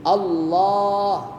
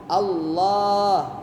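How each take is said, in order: The two takes are said the same way.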